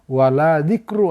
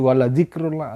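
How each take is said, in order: First: The vowel in 'la' is drawn out long. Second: The vowel in 'la' is kept short. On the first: There is no remembrance of God. The speaker calls it wrong. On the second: Remembrance of God is truly greatest. The speaker calls it right.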